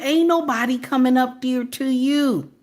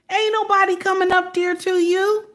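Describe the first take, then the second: First: Said in the usual way. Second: Ain't nobody said much higher, rising; high, insistent repeat; emphatic repeat, pitched way up. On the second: Real, not acted. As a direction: push it up high to drive it home. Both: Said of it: "with the nasty attitude".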